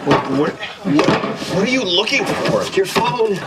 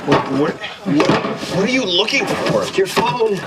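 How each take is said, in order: The two takes are said the same way.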